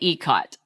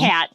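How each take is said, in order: First: The first vowel sounds like 'ee'. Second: The first vowel sounds like 'eye'. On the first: This is how the speaker says it. The speaker calls it right. "I say ECOT" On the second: Other people say it this way. The speaker calls it wrong. "I hear ICAT ... I don't think it's ICAT"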